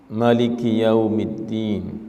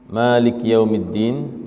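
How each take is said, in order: First: The first vowel of Maliki is short. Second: The first vowel of Maliki is long. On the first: It means the king of the Day of Judgment. "membaca pendek" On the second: It means the owner of the Day of Judgment. "yang biasa kita baca, yang artinya berarti pemilik hari kiamat"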